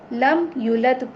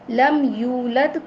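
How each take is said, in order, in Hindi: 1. yulad में लंबा स्वर गिराया जाता है। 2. yulad में लंबा स्वर पूरा रखा जाता है।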